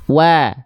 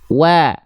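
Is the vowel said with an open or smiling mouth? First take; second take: smiling; smiling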